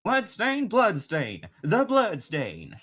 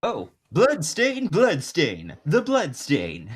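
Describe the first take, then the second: First: Put-on slow Southern country accent. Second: Smooth jazz musician drawl, stretched slow. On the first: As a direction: drawl the name like a Southern country man. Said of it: "more of a country accent". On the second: Acted. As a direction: croon the name like a jazz man. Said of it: "go a bit more, like, jazz musician".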